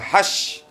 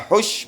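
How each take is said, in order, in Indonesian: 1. Vokalnya bunyi 'a' yang terbuka. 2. Vokalnya bunyi 'u' yang bulat. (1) "boleh dibaca hash" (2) "Boleh dibaca hush"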